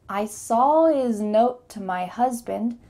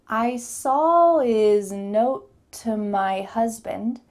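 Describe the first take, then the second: First: The sentence is spoken faster. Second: The sentence is spoken slowly. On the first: "Let's say this a little bit faster" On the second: "Let's say this a little bit slowly at first"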